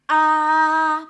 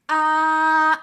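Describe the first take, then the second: First: The pitch stays level throughout. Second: The same.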